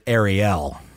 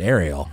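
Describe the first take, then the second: First: The name ends rhyming with 'fell'. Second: The name ends not rhyming with 'fell'. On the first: The speaker calls it wrong. "So that only works if you pronounce it Ariel" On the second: The speaker calls it right. "I would pronounce it Ariel"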